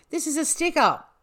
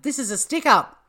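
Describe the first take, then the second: First: It is said in a put-on English accent. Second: It is said in a plain Australian accent.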